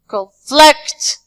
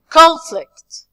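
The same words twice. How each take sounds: First: The stress is on the second syllable. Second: The stress is on the first syllable. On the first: It is used as a verb. "The second part" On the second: It is used as a noun. "when we move to the nouns and adjective, we say"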